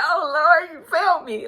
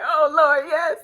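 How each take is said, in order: First: High, loud wail of a prayer through tears; retelling her crying at the altar, a hammed-up tearful wail; mock crying prayer. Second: High, loud church-style exclamation of praise; a hammed-up worshipper caught in the spirit; mock spirit-filled praise. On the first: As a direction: pretend to sob out a thank-you to God. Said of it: "But I was really crying". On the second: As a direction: act like the prayer is moving you. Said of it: "people thought I was really feeling the prayer".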